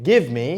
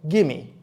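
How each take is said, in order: First: Both words are said fully and separately. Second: The two words blend into one reduced word. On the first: It is formal, book-style speech. "Instead of saying give me" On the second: It is casual speech used with friends. "informal English like gimme"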